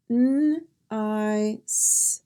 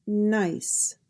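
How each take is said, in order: First: N-i-c-e in separate sounds: nnn, eye, sss; sounded out. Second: Said in the usual way. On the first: Shown as a demonstration. Teacher drilling the S sound, "N-i-c-e" sound by sound. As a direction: break "N-i-c-e" into its sounds with gaps between. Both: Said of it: "Here are some words practicing the S sound".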